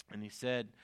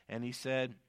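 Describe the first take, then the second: No difference in how they are said.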